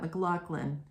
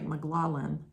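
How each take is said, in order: First: The middle consonant is a hard k sound. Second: The middle consonant is soft, without a k. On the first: This is how the person on the live stream said the name. "said it just like that" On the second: This is how the pollster's name is pronounced. "It's more like McLaughlin or something like that"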